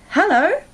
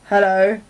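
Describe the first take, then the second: First: The greeting sounds warm and pleased. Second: The greeting sounds flat and unhappy. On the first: The speaker is very glad to see the listener. "it's clear that I'm very pleased to see you" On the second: The speaker is not glad to see the listener. "it means maybe I'm not so happy to see you"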